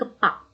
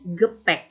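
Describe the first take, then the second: First: The second vowel sounds like a plain 'a'. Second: The second vowel sounds like an 'e'. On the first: The speaker calls it wrong. "Bukan gepak" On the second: The speaker calls it right. "tapi gepek"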